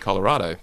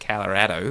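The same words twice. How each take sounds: First: It is said with an Australian pronunciation. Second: It is said with a local American pronunciation. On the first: "I would have said Colorado" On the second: "that's the way they say it when you're there"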